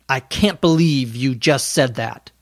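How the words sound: The voice sounds angry and harsh. "That's my angry tone of voice"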